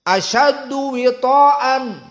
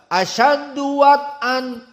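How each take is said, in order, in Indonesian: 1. Huruf w memakai i, dengan vokal ta yang dipanjangkan. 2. Huruf w memakai a pendek, tidak ada vokal panjang. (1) "bikasril waw dan mad dari to" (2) "dengan fathah waw"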